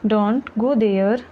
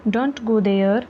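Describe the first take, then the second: First: Slow, careful model reading of Don't go there; slow repeat. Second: Said in the usual way. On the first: Shown as a demonstration. Teacher repeating Don't go there for learners, slowly. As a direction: say it again slowly so learners follow. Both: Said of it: "teacher repeats sentence slower".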